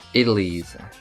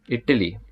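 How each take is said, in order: First: It is said in an American accent. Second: It is said in an Indian accent. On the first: "And then the American accent it will be idlis" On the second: "in the Indian accent it will be idli"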